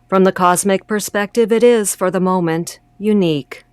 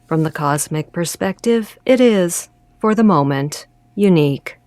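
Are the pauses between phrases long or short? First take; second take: short; long. First: The pauses between phrases are short. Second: The pauses between phrases are long.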